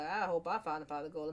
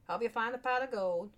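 First: Said in the usual way. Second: Higher-pitched mock Irish accent; attempted Irish accent. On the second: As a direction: wish it in a put-on, off-target brogue. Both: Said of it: "What kind of accent am I trying to do there?".

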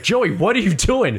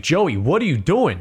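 First: A touch of New York, said higher; mild New York accent, higher. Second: Said in the usual way. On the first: Retold or imitated. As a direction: let a little New York slip into Joey, what are you doing?. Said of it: "Your New York came out a little bit". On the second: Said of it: "I said that".

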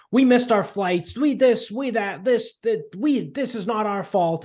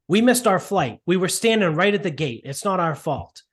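First: Mock flipping out. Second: Higher, pleading complaint; mock upset old man. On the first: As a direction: whine it out like a frantic old man, much higher. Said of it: "the old dude's, like, flipping out". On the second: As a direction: repeat the old man's protest, a touch higher. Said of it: "The old guy is there and he's like".

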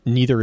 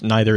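First: "neither" starting like "knee"; "neither" as NEE-ther. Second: "neither" starting like "nigh"; "neither" as NYE-ther. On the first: Correcting their wording mid-argument, "neither" said NEE-ther. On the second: Restating the point about the Traveler, "neither" said NYE-ther. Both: Real, not acted. Repeats the word in other pronunciation.

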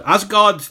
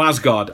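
First: Asgard lifted high and louder, emphatic; leaned-on Asgard, confirming it's true; stress on Asgard. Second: Said in the usual way. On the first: Real, not acted. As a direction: hit Asgard hard and high, insisting. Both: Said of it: "Yeah, no".

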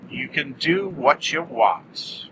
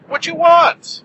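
First: Said in the usual way. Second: Shouted high, loud and emphatic; loud high echo. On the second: Acted. Shouted echo of previous line.

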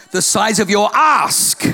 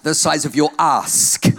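First: Shouted emphasis. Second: "The size of your ask" slow, low, weighted; slow emphasis. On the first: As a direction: shout "ask" slowly with a laugh. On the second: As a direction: lean on "your ask" slowly. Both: Shown as a demonstration. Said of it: "I did say ask".

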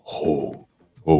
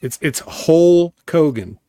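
First: "Hulk Hogan" quieter and slower; soft Hulk Hogan. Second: "Hulk Hogan" slow, each word punched; stress on Hulk Hogan. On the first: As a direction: murmur "Hulk Hogan" lightly. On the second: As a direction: draw out "Hulk Hogan" with weight. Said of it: "No, no, he says". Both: Shown as a demonstration.

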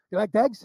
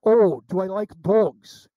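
First: "dogs" said as "dags", higher; pikey pronunciation. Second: "dogs" with a full "aw" vowel, slow and loud; slow drawn-out "Oh", then "dogs" said the American way; standard pronunciation, dawning realisation. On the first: Imitating a pikey asking about dogs, "dogs" said as "dags". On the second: Baffled man finally understands the question, "dogs" said slowly in standard speech. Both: Shown as a demonstration. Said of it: "the difference in the way they talk".

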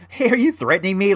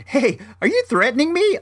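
First: Quick, higher, jokey question; totally joking. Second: High, joking question; playing it off lightly. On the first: Retold or imitated. Buyer demonstrating how he said it, totally joking. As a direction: rattle it off as an obvious joke. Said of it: "like I'm totally joking, right?". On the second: Buyer to seller waving screwdriver, playing it off lightly. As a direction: toss it out as a light joke, pitched way up. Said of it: "I try to play it off lightly".

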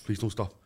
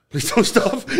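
First: Low, soft pleading with himself; quiet retold plea. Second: Raised pitch, laughing as he begs; higher mock plea. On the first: Pleading with his own beating heart, low and soft. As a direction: beg under your breath, half-joking. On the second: Pleading with his own beating heart, high and half-laughing.

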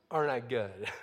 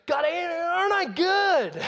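First: Low, understated boast; smug Pharisee. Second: High, drawn-out shouted boast; boasting Pharisee. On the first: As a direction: drop it low, as if settled. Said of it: "he pulls out the tax collector's resume". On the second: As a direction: crow it to God, loud and slow. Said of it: "And so he goes". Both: Acted.

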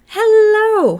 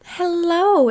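First: Squealed hello, much higher and louder. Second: Loud high show-host hello; big hello. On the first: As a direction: shriek the greeting. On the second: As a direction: belt the greeting like a host. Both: Shown as a demonstration. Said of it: "no, that was horrible".

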